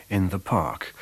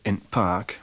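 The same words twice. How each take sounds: First: Said in the usual way. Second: "in park" with the article said only as a glottal stop before park; Yorkshire "in park", the as a bare glottal stop; Leeds glottal article. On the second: Shown as a demonstration. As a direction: imitate Leeds dialect: "in park" with a glottal catch for the. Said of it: "pronounced just as a glottal stop in the phrase".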